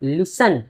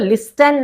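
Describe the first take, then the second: First: The t sound is left silent. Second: The t sound is clearly pronounced. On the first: The speaker calls it right. "ये टी silent हो जाता है" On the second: The speaker calls it wrong. "इसको लिस्टन नहीं पढ़ते हैं"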